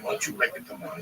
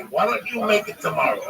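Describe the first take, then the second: First: Said in the usual way. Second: "make" stressed with a falling tune, said with more push; corrected emphatic take. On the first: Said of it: "Don't say what you, no, no, no". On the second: Shown as a demonstration. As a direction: lean on "make" and let it drop.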